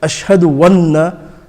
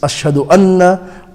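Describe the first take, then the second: First: A w sound starts the second word. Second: A vowel starts the second word. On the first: The speaker calls it wrong. "it's a common mistake. Without realizing, people pronounce a wow" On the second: The speaker calls it right. "and it's Ashhadu anna"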